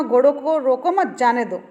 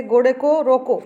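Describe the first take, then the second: First: रोको मत as one falling phrase, then जाने दो; group घोड़ों को रोको मत apart from जाने दो; pause after मत. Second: घोड़े को रोको closed off with a falling रोको; phrase ends on रोको. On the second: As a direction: stop firmly after रोको, with no मत attached. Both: Shown as a demonstration. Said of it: "अलग-अलग स्थान पर विराम चिन्ह लगाने से".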